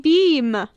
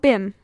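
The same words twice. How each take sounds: First: The vowel is drawn out and emphasised. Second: The vowel is short and plain. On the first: The name contains two I's. The speaker calls it right. "if you've got two I's, it would have to emphasise that" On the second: The name contains one I. The speaker calls it wrong. "not BIM"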